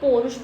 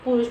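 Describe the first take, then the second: First: The first vowel is the diphthong 'au'. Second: The first vowel is a short 'u'. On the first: "कहीं कहीं पे इसको पौरुष बोलते हैं" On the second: "कहीं कहीं पे इसको पुरुष बोल देते हैं"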